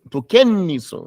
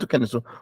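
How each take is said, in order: First: The n sound is doubled and held. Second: The n sound is short and single. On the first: The speaker calls it right. "shadda means you have to stop on it hard" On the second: The speaker calls it wrong. "It's not tukennisu. What about the shadda?"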